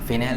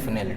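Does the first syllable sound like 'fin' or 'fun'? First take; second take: fin; fun. First: The first syllable is said like 'fin'. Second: The first syllable is said like 'fun'. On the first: The speaker calls it wrong. "फिनेल नहीं" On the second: The speaker calls it right.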